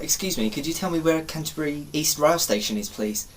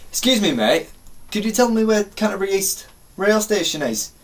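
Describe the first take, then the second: First: Lightly put-on well-spoken English accent; polite, well-spoken English request, softening at the end. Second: Higher matey enquiry; put-on matey character. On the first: Asking a stranger for the station, well-spoken English. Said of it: "I was very well spoken". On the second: Asking a bloke for the station, put-on matey voice. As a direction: play a character asking for help. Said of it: "I like being different characters".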